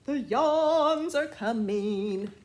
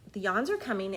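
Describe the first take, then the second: First: Loud, slow, dramatic title; dramatic announcement. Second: Said in the usual way. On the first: Shown as a demonstration. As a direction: announce it like a big event.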